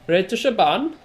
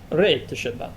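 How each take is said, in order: First: It is said with a German-sounding accent. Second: It is said with an Italian-sounding accent. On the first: "That's a shit German accent done by a fake Australian" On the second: "that's an Italian accent speaking German"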